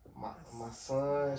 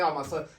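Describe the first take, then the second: First: It is said quietly and hesitantly. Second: It is said loudly and boldly.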